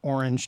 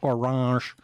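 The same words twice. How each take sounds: First: It is said with an American accent. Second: It is said with a French accent.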